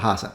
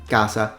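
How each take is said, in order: First: The word begins with a breathy h sound. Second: The word begins with a hard k sound. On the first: A vowel comes before the word. "if there is a vowel before, it becomes la hasa" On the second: The word stands on its own. "they pronounce it like a k"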